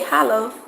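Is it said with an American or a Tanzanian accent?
Tanzanian. It is said with a Tanzanian accent.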